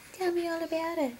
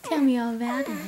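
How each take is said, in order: First: Quick soft coo; soft and fast. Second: Said in the usual way. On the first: Real, not acted. Mom coaxing her newborn to babble, soft and quick. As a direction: rush it softly, almost under your breath.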